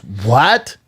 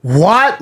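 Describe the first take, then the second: First: Restrained "What?" with rising tone; first disbelieving what. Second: High, rising, incredulous "What?"; loud what. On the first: Girlfriend hearing the break-up, muted disbelieving what. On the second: Girlfriend reacting in a packed restaurant, loud incredulous what. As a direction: pitch it up in loud disbelief. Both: Retold or imitated.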